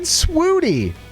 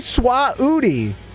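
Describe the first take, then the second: First: The word is said smoothly without an extra syllable. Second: The word is broken into an extra drawn-out syllable. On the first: The speaker calls it right. "Trashly said swooty" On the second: The speaker calls it wrong. "She didn't say swah-ooty"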